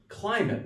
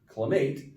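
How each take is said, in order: First: The stress is on the first syllable. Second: The stress is on the second syllable. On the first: The speaker calls it right. "you're gonna have the accent on the first syllable" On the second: The speaker calls it wrong. "not climate"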